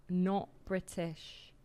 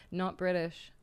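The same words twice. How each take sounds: First: Not British drawn out slowly, Not punched, falling; slow emphatic Not British, each word set apart; stress on Not. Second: Said in the usual way. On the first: Shown as a demonstration. Correcting a chatter who asked if she's British, Not stressed. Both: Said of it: "Are you British?".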